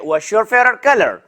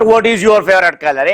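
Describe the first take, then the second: First: What and is are joined into one syllable. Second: What and is are said as separate words. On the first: The speaker calls it right. "इसको हम लाइजॉन्स कहते हैं" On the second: The speaker calls it wrong. "Not"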